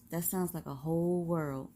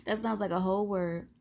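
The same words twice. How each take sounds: First: Said in the usual way. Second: Laughs and corrects to "word", quicker; "word" said through a laugh, fixing the slip; laughing correction. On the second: Real, not acted.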